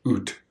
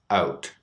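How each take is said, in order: First: The vowel is pushed toward an 'oo' sound. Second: The vowel starts higher in the mouth. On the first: "Exaggerated sound" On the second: "Canadian raised sound"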